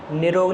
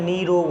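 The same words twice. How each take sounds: First: निरोग with a short first i; wrong pronunciation. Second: नीरोग with a long first ee; correct pronunciation. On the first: Teacher rejects a misspelling, sounding its short vowel. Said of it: "निरोग नहीं होता है". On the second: Teacher gives the right spelling, long first vowel. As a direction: lengthen the नी of नीरोग. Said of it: "निरोग होता है". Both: Shown as a demonstration.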